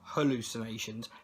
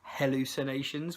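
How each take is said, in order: First: The first syllable sounds like 'hall'. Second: The first syllable sounds like 'hell'. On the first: The speaker calls it wrong. "not hallucinations" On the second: The speaker calls it right. "with like as in hell"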